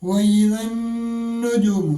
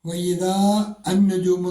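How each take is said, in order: First: The words are run together. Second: The words are said separately.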